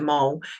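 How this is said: The final L sound is pronounced. This is the speaker's own way of saying it. "whereas to me it's just a mole"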